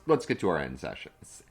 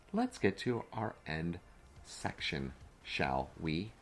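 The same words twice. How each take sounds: First: Said in the usual way. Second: Slow, softer, carefully spaced words; measured, over-careful enunciation. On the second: Real, not acted. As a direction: say it slowly and deliberately after a slip of the tongue. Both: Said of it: "I can't even speak it".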